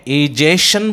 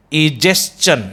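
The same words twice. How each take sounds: First: इजेशन ending in "shun"; wrong pronunciation. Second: इजेशन with "s-chun" ending; correct pronunciation. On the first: Teacher offering the first option, mispronounced. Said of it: "egestion is a wrong pronunciation". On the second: Teacher offering the second option, correctly pronounced. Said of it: "is the correct pronunciation". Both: Shown as a demonstration.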